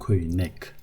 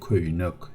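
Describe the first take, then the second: First: The second vowel is unrounded. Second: The second vowel is rounded. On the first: The speaker calls it wrong. "I don't say köynek" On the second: The speaker calls it right. "because of this round vowel, we read the subsequent syllables rounded"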